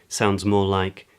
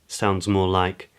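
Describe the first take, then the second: No difference in how they are said.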